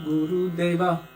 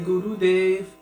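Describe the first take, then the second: First: The name ends with a final vowel sound. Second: The name ends without a final vowel sound. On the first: "unless we're saying Jaya Guru Deva" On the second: "So we don't pronounce the A"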